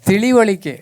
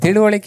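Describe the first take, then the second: First: The second vowel is 'i', as in 'li'. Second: The second vowel is 'u', as in 'lu'. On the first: The speaker calls it right. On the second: The speaker calls it wrong. "ತಿಳುವಳಿಕೆ ಅಲ್ಲ"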